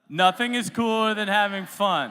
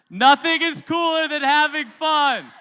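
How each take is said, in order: First: It is spoken at normal loudness. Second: It is yelled very loudly.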